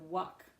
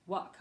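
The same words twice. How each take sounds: First: The vowel is short, like a quick uh. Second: The same.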